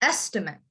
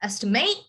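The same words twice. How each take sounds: First: The stress is on the first syllable. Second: The stress is on the last syllable.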